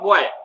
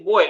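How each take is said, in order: First: The word is said with a distorted pronunciation. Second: The word is said with its standard pronunciation. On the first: The speaker calls it wrong. "not boy" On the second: The speaker calls it right. "The correct pronunciation is boy"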